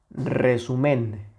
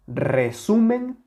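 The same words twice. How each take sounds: First: Resumen with weight moved to final MEN; stress off SU. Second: Resumen with a strong middle syllable; stress on SU. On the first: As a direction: say resu-MEN, keeping SU light. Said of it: "le acabamos de quitar la intensidad". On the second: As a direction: put the weight on SU in resumen. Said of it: "No es lo mismo". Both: Shown as a demonstration.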